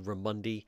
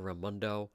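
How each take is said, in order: First: The name ends with an 'ee' sound. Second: The name ends with an 'oh' sound. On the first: This is how the caller mispronounced the name. The speaker calls it wrong. "She'd say Raimondi" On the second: This is the usual pronunciation of the name. The speaker calls it right. "instead of Raimondo"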